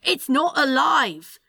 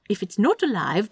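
First: Slow, higher, emphatic denial; exasperated insistence. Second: Said in the usual way. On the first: Acted. Demon insisting to the angel, exasperated. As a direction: spell it out in frustration. Quarrel over Roomba being alive.

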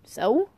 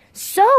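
First: Said in the usual way. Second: High, loud, outraged echo; incredulous exclamation. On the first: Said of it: "I said". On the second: A narrator's reading. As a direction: throw the word back in disbelief. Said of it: "the old man exclaimed".

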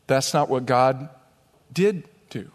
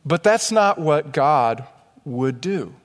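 First: "did" set apart and raised after a pause; pause, then lift and punch "did"; stress on "did". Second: "would" set apart after a pause; pause, then land on "would" in a falling voice; stress on "would". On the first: Corrects would do to did do. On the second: Contrasts would do with did do. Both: Shown as a demonstration.

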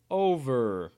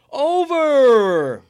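First: Said in the usual way. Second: Loud, high, drawn-out announcer shout; announcing the result. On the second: Real, not acted. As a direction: belt it out like a big reveal. Announcing the dice result loudly.

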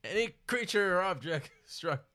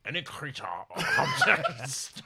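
First: Hint of a Scottish dragon, laughing at first; Sean Connery dragon. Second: Slow, laughing Scottish dragon; bad Connery as a dragon; Sean Connery dragon. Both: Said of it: "That's the worst Sean Connery I've ever".

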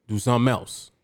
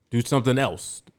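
The two takes are said the same way.

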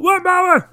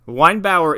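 First: High, loud yell of the name; mock yell. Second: Said in the usual way. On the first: Drunk guy yelling for his neighbor, loud mock yell. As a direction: bellow the name across the yard. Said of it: "this guy's outside just going". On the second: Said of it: "Weinbauer is a very unfortunate last name".

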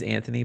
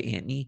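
First: Said in the usual way. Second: Anthony said as Antny, t for th; Anthony clipped to Ant-ny, Jersey style; Jersey pronunciation. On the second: Shown as a demonstration. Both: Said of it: "but they say Anthony".

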